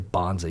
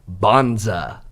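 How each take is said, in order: First: The word is said flat, without inflection. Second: The word is said with lively, strong inflection. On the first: The speaker calls it wrong. "you can't just say bonza" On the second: The speaker calls it right. "You got to say bonza"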